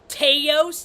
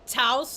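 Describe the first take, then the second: First: The name does not rhyme with house. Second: The name rhymes with house. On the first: The speaker calls it wrong. "I say Teos just because people get all mad" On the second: The speaker calls it right. "like house"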